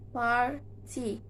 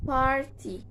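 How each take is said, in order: First: "party" split into par and ty, with a gap; syllable by syllable. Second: Said in the usual way. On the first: Shown as a demonstration. Teacher showing two syllables, "party" said syllable by syllable. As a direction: break "party" into two separate beats. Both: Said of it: "two syllables".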